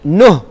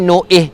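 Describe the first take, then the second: First: The nun runs straight into the next sound. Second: A glottal catch separates the nun from the vowel. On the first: The speaker calls it right. "Cara yang betul begini" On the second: The speaker calls it wrong. "nu'ih salah"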